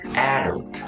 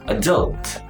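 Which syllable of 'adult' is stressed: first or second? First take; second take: first; second. First: The stress is on the first syllable. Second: The stress is on the second syllable. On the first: "if you want to use British accent, it should be the first syllable should be stressed" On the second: "In American accent, should be adult. The second syllable should be stressed"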